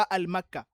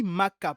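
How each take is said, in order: First: "al-Makka" loud, with "al" before the m; wrong form with article. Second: "Makka" said loudly, starting straight on the m; correct form without article. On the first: Teacher rejecting the pupils' error, emphatic "al-Makka". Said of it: "pas al-Makka". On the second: Teacher insisting to pupils, emphatic bare "Makka". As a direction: stress "Makka" firmly, nothing before it. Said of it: "On dit Makka". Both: Shown as a demonstration.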